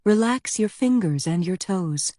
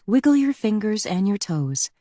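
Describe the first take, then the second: First: Gentle, unhurried yoga instruction; calm relaxation cue; most soothing tone. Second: Higher, slightly brisker instruction; mildly hurried yoga cue; less soothing, more rushed. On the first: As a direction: soothe the class into letting go. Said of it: "in her most soothing tone". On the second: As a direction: move the class along lightly. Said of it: "her voice less soothing, more rushed". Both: A narrator's reading.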